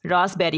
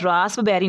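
First: "रास्पबेरी" said ras-beri, no p; silent p. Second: "रास्पबेरी" with p sounded before b; wrong pronunciation. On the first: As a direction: drop the p from "रास्पबेरी". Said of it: "होता है". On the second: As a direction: pronounce the p in "रास्पबेरी". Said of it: "नहीं होता". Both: Shown as a demonstration.

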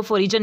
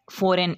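First: "फॉरिजन" with g sounded as j; wrong pronunciation. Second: "फॉरेन" with no g sound; silent g. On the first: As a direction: add a j sound inside "फॉरिजन". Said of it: "नहीं पढ़ना". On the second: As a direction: leave the g out of "फॉरेन". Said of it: "इसको फॉरेन पढ़ना है". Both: Shown as a demonstration.

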